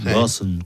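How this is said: It is said imitating a Boston accent.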